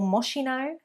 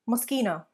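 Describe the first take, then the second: First: The middle consonant is said as ch. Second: The middle consonant is said as sk. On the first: The speaker calls it wrong. "It is not Moschino or Moschino" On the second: The speaker calls it right. "pronounced as a sk rather than a sh or ch sound"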